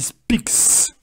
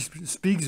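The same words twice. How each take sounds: First: The word ends with a hissing s sound. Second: The word ends with a buzzing z sound. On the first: The speaker calls it right. "on prononcera comme un S" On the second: The speaker calls it wrong. "j'ai dit speaks, mais je suis trompé"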